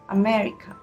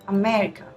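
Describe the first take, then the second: The two takes are said the same way.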